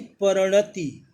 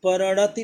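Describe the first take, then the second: First: परिणति said slowly, each syllable spelled out clearly; slow dictation-style परिणति; slow careful pronunciation. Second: Said in the usual way. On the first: Shown as a demonstration. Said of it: "तो परिणति सही है". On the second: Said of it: "परिणति नहीं".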